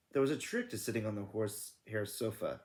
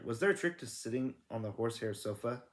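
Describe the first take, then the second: First: Said in the usual way. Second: "Was there a trick to sitting on the horse hair sofa?" asked, rising at the end; read as a question. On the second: A narrator's reading. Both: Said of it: "No, sorry".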